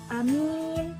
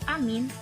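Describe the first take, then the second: First: Only the second vowel is long. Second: Both vowels are short. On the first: It means honest. "jadi a-nya pendek, uh, terus mim-nya tuh panjang" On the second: It means safe. "pendek semua"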